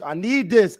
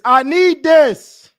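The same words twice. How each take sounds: First: Said in the usual way. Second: Loud, slow, stretched-out need; desperate plea. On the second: Real, not acted. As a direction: beg the football gods out loud. Pleading for the win.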